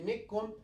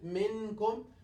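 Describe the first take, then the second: First: The n is dropped and merged into k. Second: The n is pronounced fully and clearly. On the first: "We will not kill it. We say mikkum" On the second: "will not pronounce it one hundred percent minkum"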